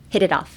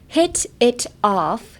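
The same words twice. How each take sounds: First: The t between hit and it is a quick tap. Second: The t between hit and it is clearly pronounced. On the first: The speaker calls it right. "ヒットとイットの間のところがめちゃくちゃ早いです" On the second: The speaker calls it wrong. "じゃなくて"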